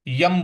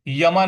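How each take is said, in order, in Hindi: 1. शब्द बिना स्वर के व्यंजन पर समाप्त होता है। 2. शब्द दीर्घ 'a' स्वर पर समाप्त होता है। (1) "यम बोलेंगे" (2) "यमा नहीं बोलेंगे"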